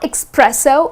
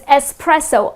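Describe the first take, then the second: First: The word begins with an 'ex' sound. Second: The word begins with an 'ess' sound. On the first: The speaker calls it wrong. "it's not espresso. It doesn't have X" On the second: The speaker calls it right. "The correct pronunciation is just the way it is spelled"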